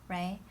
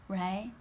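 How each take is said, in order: No difference in how they are said.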